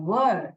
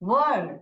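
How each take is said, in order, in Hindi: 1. स्वर की ध्वनि 'er' जैसी है। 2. स्वर की ध्वनि 'er' जैसी है।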